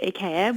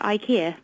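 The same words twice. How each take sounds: First: Ikea as ih-KAY-a; original pronunciation. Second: Ikea as eye-KEE-a; anglicised pronunciation. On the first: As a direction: stress a "kay" in the middle of ikea. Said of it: "we don't call it ikea". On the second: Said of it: "we call it ikea". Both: Shown as a demonstration.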